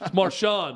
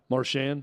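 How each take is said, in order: First: The name is pronounced in a French way. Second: The name is pronounced in an English way. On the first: "It's Marchand in French" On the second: "We'll go with yours"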